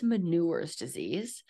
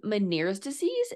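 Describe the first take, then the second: First: "Menure's" with an oo sound in place of Meniere's; dictation mispronunciation. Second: Said in the usual way. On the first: Retold or imitated. Host mocking text-to-speech captions, mispronouncing it "Menure's". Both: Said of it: "when I do text to speech".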